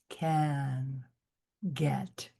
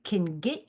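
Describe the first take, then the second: First: The vowels are open, with an open throat. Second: The vowels are squeezed and flat, Midwestern-sounding. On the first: The speaker calls it right. "open up the throat" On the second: The speaker calls it wrong. "very Midwestern. All your vowels are squished"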